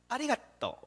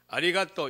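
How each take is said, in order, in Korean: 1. 통통 튀듯 생기 있게 말합니다. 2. 밋밋하게, 통통거리는 느낌 없이 말합니다. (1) "이렇게 좀 촐랑거리면서 해야 됩니다" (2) "이렇게 하면 안 됩니다"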